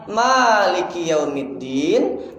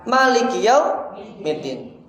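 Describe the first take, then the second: First: The first vowel of Maliki is drawn out long. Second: The first vowel of Maliki is kept short. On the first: "Ada yang baca panjang" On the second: "ada yang baca pendek"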